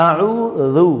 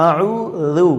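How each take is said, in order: Both takes have the same delivery.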